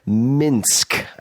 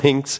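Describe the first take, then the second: First: It is said in a Russian-style way. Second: It is said in an English-style way. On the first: The speaker calls it right. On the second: The speaker calls it wrong. "not Minsk"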